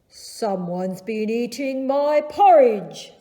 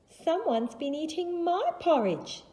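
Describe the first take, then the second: First: It is said in a big Daddy Bear voice. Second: It is said in a medium-sized Mama Bear voice.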